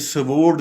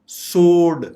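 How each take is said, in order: First: The w after the s is sounded. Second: The w after the s is silent. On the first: The speaker calls it wrong. "ये स्वोर्ड नहीं है" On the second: The speaker calls it right. "डब्ल्यू बिल्कुल silent है"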